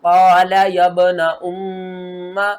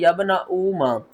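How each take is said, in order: First: "यब्न उम्मा" chanted with a long nasal mm; recitation with ghunna. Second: "यब्न उम्मा" with long ऊ, no nasal hold; wrong reading demo. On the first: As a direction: hold the doubled म in "उम्मा" through the nose. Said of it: "गुन्ना करेंगे". ("उम्मा" में गुन्ना के साथ तिलावत) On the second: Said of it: "ना ही इसको पढ़ना है". ("यब्न उम्मा" बिना गुन्ना, ऊ खींचकर) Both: Shown as a demonstration.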